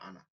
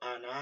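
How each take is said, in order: First: The final vowel is kept short. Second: The final vowel is drawn out long. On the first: The speaker calls it right. "কিন্তু এই টানটা হবে না" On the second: The speaker calls it wrong. "এখানে টান ছিল আনা"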